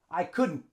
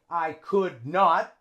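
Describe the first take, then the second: First: It is said as one contracted word. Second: It is said as two full words. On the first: The speaker calls it right. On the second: The speaker calls it wrong. "So we don't say"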